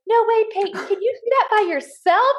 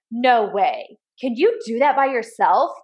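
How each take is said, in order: First: Put-on a bright little-boy voice, pitched way up; imitating her young son, much higher. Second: Said in the usual way. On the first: Mom imitating her son cheering on his little sister, much higher. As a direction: play the big brother egging his sister on. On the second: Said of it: "a lot of the times I'll be like".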